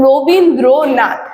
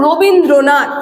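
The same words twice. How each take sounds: First: Rabindranath very slowly, broken into ro, bin, dro, nath; Rabindranath stretched out in separate beats; syllable by syllable. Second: Said in the usual way. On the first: Shown as a demonstration. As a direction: pause between each syllable of Rabindranath. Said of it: "এক এক জায়গায় কিন্তু আমরা থামছি". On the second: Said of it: "দেখো এক এক জায়গায় কিন্তু আমরা থামছি".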